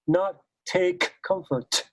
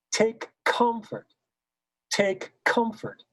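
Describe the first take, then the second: First: Slow "take comfort" with an even K and C; wrong consonant balance. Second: Slow "Take comfort" with a soft K and a strong C. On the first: Director showing the wrong way, "take comfort" with the K as strong as the C. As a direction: give the K of "take" full weight. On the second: Director demonstrating, "Take comfort" with a soft K and a strong C. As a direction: whisper the K of "take", land on the C of "comfort". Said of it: "The K is softer than the C". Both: Shown as a demonstration.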